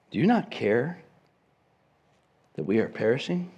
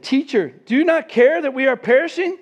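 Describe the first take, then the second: First: Quiet reflective reading. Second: Higher and louder, a frantic cry to the teacher; panicked plea. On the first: Shown as a demonstration. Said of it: "The emphasis is not on". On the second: Retold or imitated. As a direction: beg like sailors about to drown. Disciples panic in the storm.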